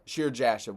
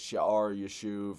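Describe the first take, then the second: First: The name is said with an English pronunciation. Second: The name is said with a Hebrew pronunciation. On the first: "will work just fine" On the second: "The Hebrews would have pronounced this"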